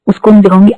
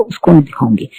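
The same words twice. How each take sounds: First: उसको नहीं दिखाऊंगी repeated higher and louder, hitting नहीं; insistent refusal. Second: Said in the usual way. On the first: Retold or imitated. To the doctor, loudly refusing to see a psychiatrist. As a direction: push back hard on the second उसको नहीं दिखाऊंगी.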